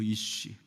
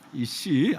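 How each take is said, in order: First: The word ends with an 'sh' sound. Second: The word ends with an 's' sound. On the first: The speaker calls it right. "히브리어로 이쉬예요" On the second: The speaker calls it wrong. "이씨 아니에요. 발음을 잘 하시길 바랍니다"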